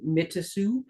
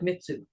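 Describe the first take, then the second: First: The name is said slowly, every syllable full. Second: The name is said quickly, syllables run together. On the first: This is how the name first looked when read. "I thought it was like Mitasu" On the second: This is how the owners themselves say it. "he says it really fast, so it just sounds like Mitsu"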